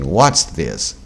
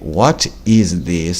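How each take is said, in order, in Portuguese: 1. What e is se juntam em uma só sílaba. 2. What e is são pronunciados como palavras separadas. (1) "a forma como nós falamos" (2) "Está escrito"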